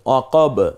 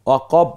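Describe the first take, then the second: First: The final b bursts out with a bounce. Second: The final b is clipped without release. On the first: The speaker calls it right. "এই দুইটা ঠোঁট দ্রুত আবার আলাদা হয়ে গেল।" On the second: The speaker calls it wrong. "এভাবে বলছি না কিন্তু"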